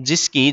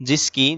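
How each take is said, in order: The two takes are said the same way.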